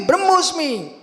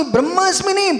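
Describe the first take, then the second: First: ब्रह्मोस्मि with a rounded o before smi; correct vowel shown. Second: ब्रह्मास्मि with a long aa before smi, raised pitch; wrong vowel shown. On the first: Teacher giving the correct word, rounded o in ब्रह्मोस्मि. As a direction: sound a clear o in ब्रह्मोस्मि, falling at the end. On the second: Teacher rejecting the wrong word, long aa in ब्रह्मास्मि. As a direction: say ब्रह्मास्मि with open aa, then stress नहीं. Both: Shown as a demonstration.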